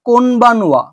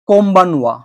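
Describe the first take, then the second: First: An n sound comes before the b. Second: An m sound comes before the b. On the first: "আমি এখানে লিখেছি কোনবানুয়া" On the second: "এটা হয়ে যাবে কোম্বানুয়া"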